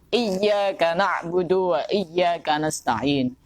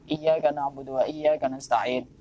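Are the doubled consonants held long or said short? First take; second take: long; short. First: The doubled consonants are pressed and held long. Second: The doubled consonants are said short, not held. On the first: The speaker calls it right. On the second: The speaker calls it wrong. "Kadang-kadang bacanya itu"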